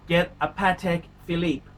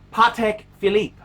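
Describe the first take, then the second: First: Said in the usual way. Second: Patek said pah-TEK and Philippe said fee-LEEP, louder; showing the posh French Patek Philippe to the plebeians; French-style Patek Philippe. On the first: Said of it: "you've gotta start pronouncing it". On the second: Shown as a demonstration. Vlogger teaching viewers the proper Patek Philippe pronunciation. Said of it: "You gotta get that, that, that accent right".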